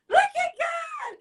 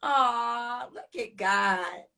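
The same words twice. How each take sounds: First: Much higher, slow, exultant cry; praise shout. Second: Hushed awe. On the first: Host praising God to her viewers, a high joyful cry. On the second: Host after the guest leaves, a slow hushed murmur. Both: Real, not acted.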